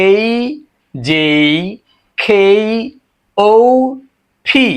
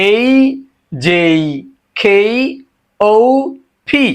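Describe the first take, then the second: Both takes have the same delivery.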